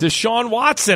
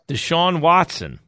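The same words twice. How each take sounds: First: The name is said loudly and confidently. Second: The name is said quietly and hesitantly.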